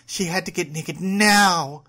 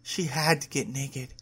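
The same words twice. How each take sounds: First: "now" burst out loud and higher; urgent stress on NOW. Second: Said in the usual way. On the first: A narrator's reading. Narrator voicing a character's urgency, "now" punched loud. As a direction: build to a loud, long "now".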